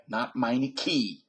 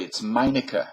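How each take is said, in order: First: "Meineke" said MY-nih-kee, slow; mock the muffler-ad "Meineke" ending in ee; wrong pronunciation. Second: "Meinecke" said MY-nih-kuh; careful German "Meinecke" with final schwa; correct pronunciation. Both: Shown as a demonstration. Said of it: "pronounce it correctly".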